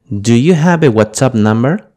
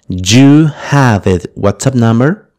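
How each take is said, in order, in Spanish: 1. La palabra 'do' se pronuncia antes de 'you'. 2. La palabra 'do' se omite por completo.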